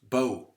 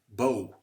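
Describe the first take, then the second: Both takes have the same delivery.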